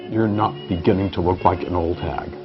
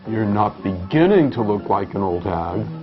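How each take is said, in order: First: The word beginning does not carry the stress. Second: The word beginning carries the main stress. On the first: "that sounds even worse" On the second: "Why do you emphasize beginning?"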